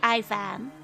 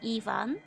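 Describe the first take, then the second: First: The name has an American pronunciation. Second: The name has a Russian pronunciation. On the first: "Americans say Ivan" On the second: "Russians have to say Ivan"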